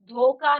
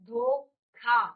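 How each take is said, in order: First: The word is said in a casual everyday pronunciation. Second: The word is said in a careful standard pronunciation. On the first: The speaker calls it wrong. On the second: The speaker calls it right.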